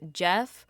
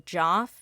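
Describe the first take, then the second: First: The vowel sounds like the one in 'let'. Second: The vowel sounds like the one in 'lot'. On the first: "pronounce it as Jeff" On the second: "other people pronounce it as Joff"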